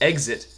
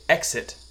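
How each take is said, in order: First: The middle consonants sound like 'gz'. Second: The middle consonants sound like 'ks'. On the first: The speaker calls it wrong. "instead of exit" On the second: The speaker calls it right. "so I say exit"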